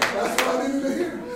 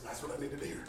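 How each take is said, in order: First: Said in the usual way. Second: Low, very soft aside; hushed, low-pitched coach's answer; quiet retold reply. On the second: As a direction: say it privately, almost to yourself. Coach's private reply, first take.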